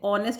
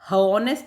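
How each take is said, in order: First: The word starts directly with a vowel. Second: The word starts with an h sound. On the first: The speaker calls it right. "ऑनेस्ट बोलते हैं" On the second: The speaker calls it wrong. "इसको हॉनेस्ट नहीं बोलते"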